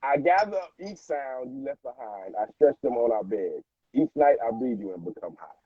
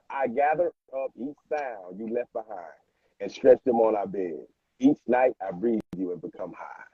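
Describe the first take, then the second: First: It is said at a normal pace. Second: It is said slowly.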